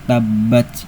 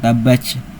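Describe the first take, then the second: First: It ends in a 't' with light breath. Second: It ends in an overblown 'ch'-like sound. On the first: The speaker calls it right. "punya sifat hamas... dialirkan tapi jangan berlebihan" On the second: The speaker calls it wrong. "bukan tabbach, bukan huruf C"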